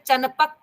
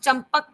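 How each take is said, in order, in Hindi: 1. p से पहले की नासिक ध्वनि n जैसी सुनाई देती है। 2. p से पहले की नासिक ध्वनि m जैसी सुनाई देती है।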